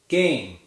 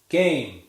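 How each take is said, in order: No difference in how they are said.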